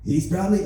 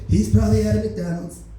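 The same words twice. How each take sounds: First: Said in the usual way. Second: Lightly voiced Trump, a bit higher and louder; Donald Trump voice. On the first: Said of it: "oh yeah, yeah, I gotta do the voice". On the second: Trump sends police after the shooter, lightly voiced Trump. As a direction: restart the line, now in the Trump voice. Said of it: "I gotta do the voice".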